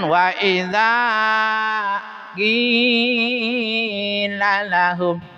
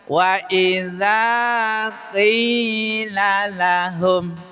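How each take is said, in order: First: The long vowel in qila is held far too long. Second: The long vowel in qila lasts two counts. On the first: The speaker calls it wrong. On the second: The speaker calls it right.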